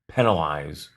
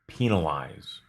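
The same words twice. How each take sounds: First: The first syllable has a short E vowel. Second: The first syllable has a long E vowel. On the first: "with a short E" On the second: "or a long E sound in the first syllable"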